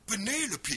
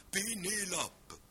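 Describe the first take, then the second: First: Pénélope said loud and high with English stress, first syllable punched; English Penelope, stressed first syllable, reduced vowels; Pénélope à l'anglaise, accent fort. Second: Pénélope said slowly, every syllable evenly weighted; French Pénélope, flat and level across all syllables; Pénélope à la française, syllabes égales; even stress. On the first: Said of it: "accent multiple". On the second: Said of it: "rien de plus égal". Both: Shown as a demonstration.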